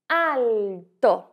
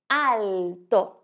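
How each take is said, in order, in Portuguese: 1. O L é pronunciado como um L claro. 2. O L é pronunciado como um L claro.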